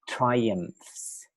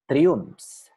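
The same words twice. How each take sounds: First: The 'ph' is said as an F sound. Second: The 'ph' is not said as an F sound. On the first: The speaker calls it right. "we pronounce it F" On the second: The speaker calls it wrong. "I firstly pronounce"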